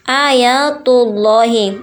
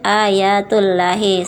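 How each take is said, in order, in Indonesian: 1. Huruf L dalam "Allah" terdengar tebal dan berat. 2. Huruf L dalam "Allah" terdengar tipis dan ringan. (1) "keduanya harus dibaca dengan tebal" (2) "bukan ... atau ayatullahi. Salah ya nak"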